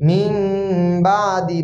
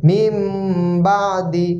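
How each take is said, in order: Both takes have the same delivery.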